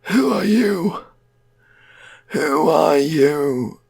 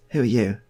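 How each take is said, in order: First: Loud, drawn-out eerie wail; high, stretched-out ghoulish call; returned dead man's voice. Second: Said in the usual way. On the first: Acted. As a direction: wail it slowly and high, like the undead. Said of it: "that guy's always gonna talk like that". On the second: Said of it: "'Cause Stephen's like that".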